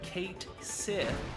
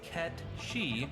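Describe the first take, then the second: First: The name sounds like 'Kate Sith', as spelled. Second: The name sounds like 'Ketchy', as one word. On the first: The speaker calls it wrong. "often confused as Cait Sith due to how it's spelled" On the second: The speaker calls it right. "its true pronunciation is Ketshi"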